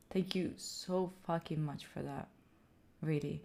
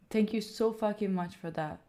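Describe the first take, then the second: First: Very soft, low gratitude; hushed, moved thanks. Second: Softened, heartfelt gratitude; sincere thanks. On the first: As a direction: let the thanks sink almost to a murmur. Repeats thanks, more hushed. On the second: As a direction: thank them quietly and earnestly. Thanks donor, first take. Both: Real, not acted.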